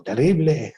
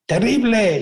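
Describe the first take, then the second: First: The same word echoed back, no call in it; the cave echo repeating the boy; mock echo. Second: Put-on a boy testing the echo with a shout; child shouting into a cave. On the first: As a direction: answer like a cave echoing. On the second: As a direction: yell it out to hear the echo.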